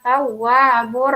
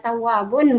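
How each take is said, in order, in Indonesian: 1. Bunyi n berubah menjadi bunyi r. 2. Kata ini berakhir dengan bunyi n. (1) "bacanya tawwabur Rahim" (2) "Tulisannya tawwabun"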